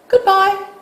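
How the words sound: It sounds light and casual. They will meet again tomorrow. "as if you expect, expected to see that person again tomorrow"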